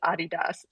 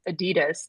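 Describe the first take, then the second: First: It is said the original non-American way. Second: It is said the common American way. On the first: The speaker calls it right. "the proper way to pronounce it" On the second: The speaker calls it wrong. "something that we mispronounce here in the U S all the time"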